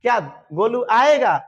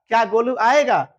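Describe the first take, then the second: First: Slow question, the word आएगा pressed and falling; slow stress on आएगा. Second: Said in the usual way. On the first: Shown as a demonstration. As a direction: drag out "क्या गोलू आएगा" and lean on आएगा. (आएगा पर ज़ोर देकर धीमा सवाल) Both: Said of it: "ये देखो".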